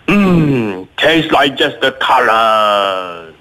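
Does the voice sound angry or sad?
angry. It is said in an angry voice.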